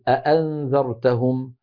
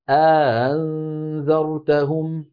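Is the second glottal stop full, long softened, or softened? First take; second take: full; long softened. First: Both glottal stops are fully pronounced. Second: A long vowel precedes the softened second stop. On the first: "الأصل أن تكون كلتا الهمزتين محققة" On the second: "يدخل بين الهمزتين ألفا ليباعد بينهما"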